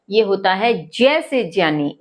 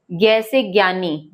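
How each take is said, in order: First: ज्ञानी said with j, /dʒjani/, stressing जय; correct pronunciation. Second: ज्ञानी said with a g, /gjani/; wrong pronunciation. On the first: Teacher giving the right ज्ञ sound, j-ya. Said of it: "इसका सही pronunciation है जय". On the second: Teacher voicing the common wrong ज्ञ, g-sound. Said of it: "जबकि ये ज्ञ से ज्ञानी नहीं होता". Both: Shown as a demonstration.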